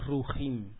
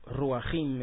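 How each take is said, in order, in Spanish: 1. La primera sílaba solo tiene la vocal 'u'. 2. La primera sílaba tiene una vocal 'a' extra. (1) "se dice rujim" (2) "eso es incorrecto, no se dice ruajim"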